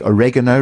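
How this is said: It is said the American way.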